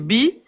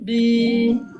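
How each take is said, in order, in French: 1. La voyelle est brève. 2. La voyelle est longue. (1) "il n'est pas prolongé" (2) "et prolonge"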